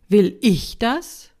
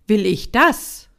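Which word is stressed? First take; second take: ich; das. First: The stress is on the word "ich". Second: The stress is on the word "das". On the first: It asks whether you want it for yourself. "die Frage mit der zweiten Betonung" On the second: It asks whether you want these consequences. "zur dritten Betonung"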